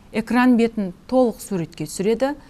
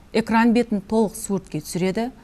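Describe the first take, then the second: Both takes have the same delivery.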